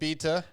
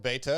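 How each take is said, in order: First: It is said with a non-American pronunciation. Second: It is said with an American pronunciation.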